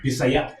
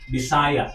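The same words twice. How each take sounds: First: The stress falls on the last syllable. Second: The stress falls before the last syllable. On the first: The speaker calls it right. "the accent is always the last" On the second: The speaker calls it wrong. "you don't say Bisaya"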